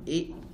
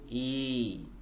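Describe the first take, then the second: First: The vowel is said short. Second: The vowel is drawn out long. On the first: It is a short vowel. "Au lieu de lire I" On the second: It is a long vowel. "on va les allonger"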